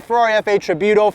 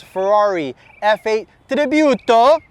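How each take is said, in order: First: Said in the usual way. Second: Ferrari F eight Tributo said slowly in a playful Italian accent, rolled r in Tributo. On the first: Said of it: "for all us Americans". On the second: Shown as a demonstration. Car dealer showing off a Ferrari to viewers, mock Italian accent. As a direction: ham up Tributo the Italian way, stretched and sung out. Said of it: "I have to say it with that accent".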